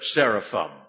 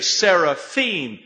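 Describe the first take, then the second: First: The word follows the usual English pronunciation. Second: The word follows the Hebrew plural ending. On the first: The speaker calls it wrong. "instead of seraphim" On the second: The speaker calls it right. "Why do you say seraphim"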